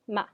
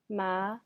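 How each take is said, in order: First: The pitch falls sharply from high to low. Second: The pitch rises from middle to high. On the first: It means to scold. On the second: It means hemp.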